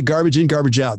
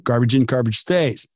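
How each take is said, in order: First: Said in the usual way. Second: Garbage stays with the weight on stays; stress on stays. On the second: Shown as a demonstration. Host correcting a common saying for listeners, stress on stays. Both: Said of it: "That is not true".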